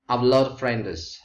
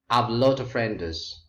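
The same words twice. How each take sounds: First: "A lot of" is run together and shortened. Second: "A lot of" is run together and shortened.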